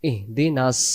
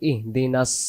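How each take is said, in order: No difference in how they are said.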